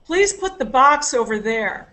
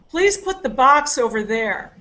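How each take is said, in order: First: The stress is on "box". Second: The same.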